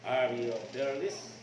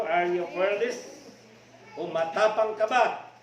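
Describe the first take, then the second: First: Fearless drawn out low and slow, rising at the end; measured, deliberate reprise; slow, weighty repeat. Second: Fearless lifted loud with a rising end; stirring preacher challenge; rousing question. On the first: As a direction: let the question sink in slowly. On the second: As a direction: fire it at the congregation. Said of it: "Matapang ba tayo?". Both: Shown as a demonstration.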